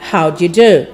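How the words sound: The pitch falls at the end. The speaker calls it right. "note that the tone of the question is descending"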